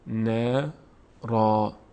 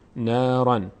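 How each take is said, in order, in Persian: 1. کلمه با یک صدای کشیده a تمام میشود. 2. کلمه با یک صدای n اضافه تمام میشود. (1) "وقف کنیم... میگیم نارا" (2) "در هنگام وصل کردن نارن خونده میشه"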